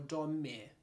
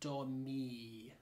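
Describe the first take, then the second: First: The vowel after the m is a short i. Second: The vowel after the m is a long i. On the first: "Do I want a short I sound" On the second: "I like the long I sound, okay? Domi, like that"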